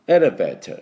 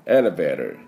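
First: It is said with a British accent. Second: It is said with an American accent. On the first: "多分イギリス系の音だったら" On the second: "これがあのアメリカの綺麗なエレベーターの音です"

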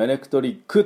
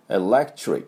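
First: An extra u vowel is added at the end. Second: The word ends cleanly on the k sound. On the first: The speaker calls it wrong. "最後にU をつけないようにね" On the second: The speaker calls it right. "っていうふうに発音すると、きれいな音ですになりますね"

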